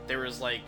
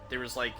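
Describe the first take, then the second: No difference in how they are said.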